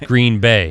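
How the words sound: The stress falls on the word Bay. The speaker calls it right. "emphasis on the Bay"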